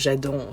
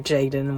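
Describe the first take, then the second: First: The name is said with a French-style pronunciation. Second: The name is said with an English-style pronunciation. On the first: This is how people in France say it. The speaker calls it wrong. "people saying uh, Jadon" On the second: This is the proper way to say it. The speaker calls it right. "Jaden is obviously something very easy to pronounce"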